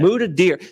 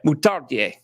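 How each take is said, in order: First: It is said with a plain local pronunciation. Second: It is said with a French-style pronunciation. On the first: "Muda Deer is the name" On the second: "I took French in high school"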